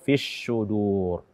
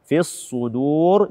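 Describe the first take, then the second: First: The s-sound is a sh sound. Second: The s-sound is a heavy emphatic s. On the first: The speaker calls it wrong. "atau fis sudur" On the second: The speaker calls it right. "Begitu juga dengan fis sudur"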